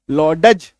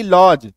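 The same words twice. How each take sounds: First: लॉडज in two beats, लॉ-डज; wrong pronunciation. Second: लॉज as one syllable without ड; correct pronunciation. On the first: Teacher shows what not to read, wrong pronunciation. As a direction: sound the D in लॉडज. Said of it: "नहीं पढ़ेंगे". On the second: Teacher cuts the D, correct pronunciation. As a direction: say लॉज with silent D. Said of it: "तो डी को काट दो". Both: Shown as a demonstration.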